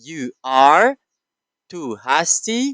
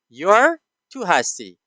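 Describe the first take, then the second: First: "You are" is said as two full words. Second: "You are" merges into one syllable. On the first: "the full form" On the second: "the contraction form"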